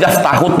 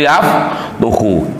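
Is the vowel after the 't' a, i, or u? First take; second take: a; u. First: The vowel after the t is a. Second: The vowel after the t is u. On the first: The speaker calls it right. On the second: The speaker calls it wrong. "tidak boleh"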